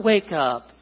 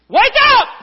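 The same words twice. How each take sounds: First: Said in the usual way. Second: High, full-blast yell; piercingly high shouted command; very loud shout. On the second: Acted. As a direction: bellow a wake-up call at top volume. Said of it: "That's not even loud".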